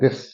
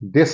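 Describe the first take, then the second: First: The first sound is a soft th. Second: The first sound is a hard d. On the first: The speaker calls it right. "ऐसे बोले" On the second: The speaker calls it wrong. "दिस नहीं"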